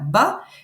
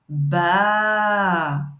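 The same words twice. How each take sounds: First: The vowel is short. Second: The vowel is held long. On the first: "si on a le B avec le fatha" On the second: "si on a le B avec le alif"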